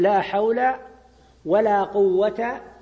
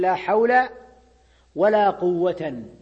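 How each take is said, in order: First: The last word ends in a short -a. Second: The last word ends in -an with nunation. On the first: The negation governs the last noun directly. "على الوجه الأول ... ولا قوة مبني على الفتح" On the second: The last noun is joined to the first noun's position. "على الوجه الثاني ... فيكون منصوبا"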